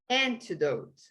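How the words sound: British accent, with the t clearly pronounced. "o britânico vai falar antidote"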